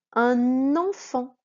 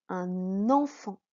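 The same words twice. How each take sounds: First: "Un enfant" read slowly and loudly, n liaison not yet heard; teacher sounds out "Un enfant" slowly for the class; slow loud model read. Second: "Un enfant" with a clear n joining into "enfant", slow; n liaison. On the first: Teacher models "Un enfant" to pupils, slow and loud. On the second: Teacher shows the liaison in "Un enfant", slow. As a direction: link the n: "un-n-enfant". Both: Shown as a demonstration. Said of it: "C'est n".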